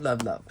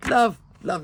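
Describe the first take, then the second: First: Love, love dropped much softer and lower, trailing off; soft repeat. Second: Said in the usual way. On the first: Real, not acted. To viewers, a soft trailing love, love. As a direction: let the second love, love fade to a murmur. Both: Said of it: "Will help me through the storm".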